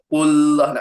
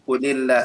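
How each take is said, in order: First: The words join directly with no vowel between. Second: An 'i' vowel links the two words. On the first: The speaker calls it wrong. "nak baca gitu payah kan?" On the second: The speaker calls it right. "dibaca dengan qulillah, dibaca dengan nipis juga"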